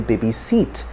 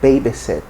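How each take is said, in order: First: The stress falls where many Nigerians place it. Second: The stress falls in the standard position. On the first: The speaker calls it wrong. "it's wrongly stressed most times in Nigeria, so you'll get to hear people say" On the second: The speaker calls it right. "but the pronunciation is"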